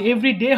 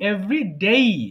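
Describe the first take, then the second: First: The vowel in 'day' stays plain without gliding. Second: The vowel in 'day' glides toward 'ee'. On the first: The speaker calls it wrong. "এভরি ডে হবে না" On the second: The speaker calls it right. "উচ্চারণটা হবে কি every ডেই"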